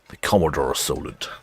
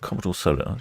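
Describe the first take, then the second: First: "The Commodore Solent" in a clumsy mock Australian accent, vowels stretched and flattened; bad Australian accent. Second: Said in the usual way. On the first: Shown as a demonstration. Naming an imagined Australian car in a bad Australian accent. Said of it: "Bad accent, sorry". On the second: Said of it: "Oh, that's wrong. Bad accent".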